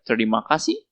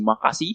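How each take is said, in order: First: All five syllables are said in full. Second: The first syllables are dropped, leaving three. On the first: It is the formal way to say thanks. "what we usually say say thank you is like terima kasih" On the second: It is the informal way to say thanks. "usually abbreviated to uh, or like shortened up to makasih"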